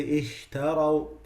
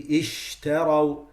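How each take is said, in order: First: Ishtaraw with a weak, light sh; slow ishtaraw, barely pressed sh; weak light sheen. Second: Ishtaraw with a firm, pressed sh; strong sheen. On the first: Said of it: "very light". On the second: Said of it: "It has to be". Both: Shown as a demonstration.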